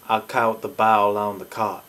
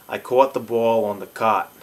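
First: It is spoken in a Southern US accent. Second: It is spoken in a New York accent. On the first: "The South is saying" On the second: "New York City and the Mid-Atlantic are saying"

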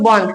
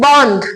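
First: The n and dh are joined in one cluster. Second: The n and dh are said apart.

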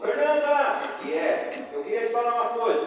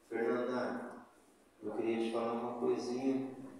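First: It is said in a harsh, abrupt tone. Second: It is said in a soft, gentle tone.

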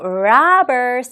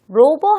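First: The first vowel is an open 'ah' sound. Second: The first vowel is a rounded 'o' sound. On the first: The speaker calls it right. "입을 라 하고 크게 벌려볼게요" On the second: The speaker calls it wrong. "로버 하지 말고"

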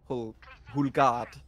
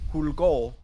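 First: The last syllable sounds like 'gard'. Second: The last syllable sounds like 'gaul'. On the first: This is how the name really sounds. The speaker calls it right. "when it's actually Hulgard" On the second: This is how people usually say it. The speaker calls it wrong. "people usually pronounce it as Hulgaul"

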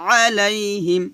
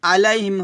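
First: The opening 'ain' sound is pressed firmly. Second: The opening 'ain' sound is said lightly. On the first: The speaker calls it right. "আইনটা একটু চাপ দিয়ে বলতে হবে" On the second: The speaker calls it wrong. "আলাইহিম হবে না"

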